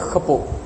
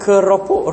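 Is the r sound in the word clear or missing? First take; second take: missing; clear. First: The r sound is lost in a throaty sound. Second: The r sound is clearly pronounced. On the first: The speaker calls it wrong. "Dia kata khepok" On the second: The speaker calls it right. "ra dak bunyi molek"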